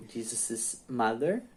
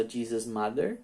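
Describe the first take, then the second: First: "Jesus'" pronounced JEE-zuh-siz, three syllables; extra possessive syllable. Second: "Jesus'" pronounced JEE-zus, two syllables; no added -iz on the possessive "Jesus'"; no extra syllable. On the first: Teacher recapping when to write the S, "Jesus'" said JEE-zuh-siz. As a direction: add an audible -iz to the end of "Jesus'". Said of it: "o S depois do apóstrofo". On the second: Teacher recapping the apostrophe-only choice, "Jesus'" said JEE-zus. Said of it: "Se você fala só". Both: Shown as a demonstration.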